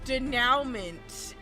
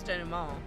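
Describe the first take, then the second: First: The word has a non-European, anglicized pronunciation. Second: The word has a European, French-style pronunciation. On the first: "Somebody was like, it's denouement" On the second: "I'm just using the European pronunciation"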